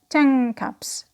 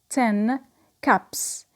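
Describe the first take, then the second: First: The word ten ends with an ng sound. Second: The word ten ends with an n sound.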